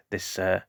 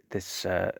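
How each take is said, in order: Both takes have the same delivery.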